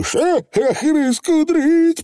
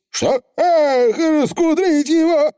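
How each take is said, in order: First: High, slow drawn-out Feegle oath; high stretched pixie curse. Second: High anguished pixie oath; dismayed Feegle. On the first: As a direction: swear under pressure. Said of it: "пробормотал Явор". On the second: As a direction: cry out in dismay. Feegle dismayed, cry heard. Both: Acted.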